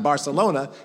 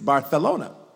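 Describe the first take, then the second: First: The middle consonant is a plain s sound. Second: The middle consonant is a lisped th sound. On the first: "Barcelona is not Barcelona" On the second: "when a native talks to you, ... it's Barthelona"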